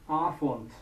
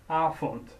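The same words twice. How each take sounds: The two takes are said the same way.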